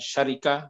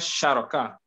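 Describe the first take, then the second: First: The second vowel is an i sound. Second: The second vowel is an a sound. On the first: The speaker calls it wrong. "Bukan syarika" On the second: The speaker calls it right. "Saya rasa syaraka"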